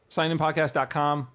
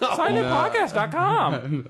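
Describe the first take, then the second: First: It is said in a plain natural voice. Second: It is said in a put-on character voice.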